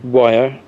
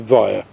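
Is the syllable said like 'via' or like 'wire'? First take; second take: wire; via. First: The syllable sounds like the English word wire. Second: The syllable sounds like the English word via. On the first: "sometimes they will pronounce it wire" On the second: "some people will say via"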